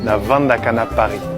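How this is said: It is said with a v, Brazzaville style.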